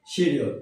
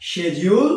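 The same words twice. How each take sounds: First: শিডিউল said "shi-di-ul"; short i and clear d in শিডিউল; low-pitched শিডিউল with "shi-di"; common mispronunciation. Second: শিডিউল said "she-jul"; শিডিউল starting "shej"; British pronunciation. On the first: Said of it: "কি বলি?". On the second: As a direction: say শিডিউল with e and a j sound. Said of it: "আসলে এটা হচ্ছে". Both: Shown as a demonstration.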